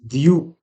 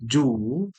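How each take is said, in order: First: The syllable starts with a 'dy' sound. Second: The syllable starts with a 'j' sound. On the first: The speaker calls it right. "whereas it should be" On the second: The speaker calls it wrong.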